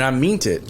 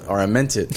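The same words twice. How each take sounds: First: "meant" said with a long ee, like "meent"; mispronounced "meant". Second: Said in the usual way. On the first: Real, not acted. Speaker fumbling a word mid-story, "meant" as "meent". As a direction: slip on "meant", rhyming it with "mint" stretched to "meent".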